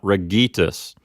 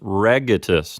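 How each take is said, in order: First: The stress is on the second syllable. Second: The stress is on the first syllable. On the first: The speaker calls it wrong. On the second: The speaker calls it right. "the accent moves back a syllable to the first syllable"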